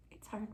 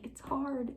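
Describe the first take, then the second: First: Very soft, hushed reply; gentle agreement. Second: Higher, soft little whine; plaintive complaint. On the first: God agrees with the believer it's hard, very softly. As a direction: agree quietly and tenderly. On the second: Believer tells God it's hard, soft plaintive complaint. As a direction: complain softly, pitched up. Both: Retold or imitated.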